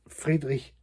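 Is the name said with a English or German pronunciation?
German. The name is pronounced the German way. "would be the German pronunciation"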